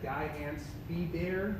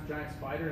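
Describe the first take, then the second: First: It is pronounced oddly, like 'guy ants bear'. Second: It is pronounced the usual way, 'giant spider'. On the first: "That's how they say it in this region" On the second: "I didn't know how to pronounce giant spider"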